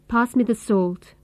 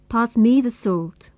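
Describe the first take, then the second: First: The word me has a short, reduced vowel. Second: The word me has a full, clear vowel. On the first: "Here, me is the weak form" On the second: "Here, me is the strong form"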